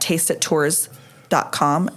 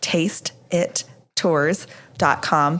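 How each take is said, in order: First: The phrase is said quickly. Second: The phrase is said slowly and clearly.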